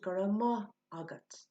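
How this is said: The word maith is said like mah. This form is used in other parts of the country. "we can hear that pronounced gura ma agat"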